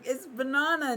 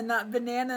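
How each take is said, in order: First: "banana" with an open ah vowel, bah-NAH-na; friend's "banana" said bah-NAH-na; his way of saying banana. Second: "banana" with a flat short a, buh-NAN-a; mocked "banana" said buh-NAN-a; the other banana. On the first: Retold or imitated. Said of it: "and he's like".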